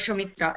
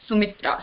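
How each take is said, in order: First: It begins with a sh sound. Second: It begins with a plain s sound. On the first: The speaker calls it wrong. "you'll not say Shumitra" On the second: The speaker calls it right. "it's Sumitra"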